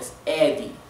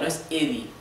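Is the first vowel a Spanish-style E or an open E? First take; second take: open E; Spanish E. First: The first vowel is an open E. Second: The first vowel is a Spanish-style E. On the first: The speaker calls it right. "Aquí Eddie abierto" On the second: The speaker calls it wrong. "Es un poco distinta la E a la E española, no es Eddie"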